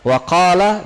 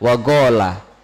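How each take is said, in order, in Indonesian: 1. Konsonan tengahnya adalah bunyi Q yang dalam. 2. Konsonan tengahnya adalah bunyi G yang keras.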